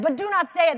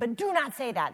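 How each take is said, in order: First: It is said with more passion and force. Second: It is said calmly, without extra force.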